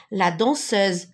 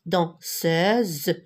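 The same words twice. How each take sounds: First: Said in the usual way. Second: "danseuse" split slowly into dan, seuse; syllable by syllable. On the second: Shown as a demonstration. Teacher showing pupils the two vowels, syllable by syllable. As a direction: break "danseuse" in two, drawing out each syllable.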